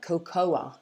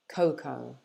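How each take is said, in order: First: An extra vowel is sounded after the final O. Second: It ends on the O sound, no extra vowel. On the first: The speaker calls it wrong. "a lot of people try and say something like cocoa, but we don't actually say it that way in English" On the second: The speaker calls it right. "we say it like this"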